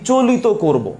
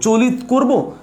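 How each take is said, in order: First: চলিত slow and higher, as "cho-li-to"; চলিত drawn out in three syllables; contrasted variants. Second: চলিত slow and higher, first "cho-lit"; চলিত drawn out with no final vowel; contrasted variants. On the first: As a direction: add an o to the end of চলিত. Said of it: "নাকি চলিত করব". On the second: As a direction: end the first চলিত on a closed t. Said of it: "উচ্চারণটা কেমন করব". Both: Shown as a demonstration.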